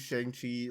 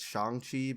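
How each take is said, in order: First: The name is said with American English sounds. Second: The name is said with Chinese-like sounds. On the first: The speaker calls it wrong. "I'm pronouncing it wrong" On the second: The speaker calls it right. "It's Shang Chi"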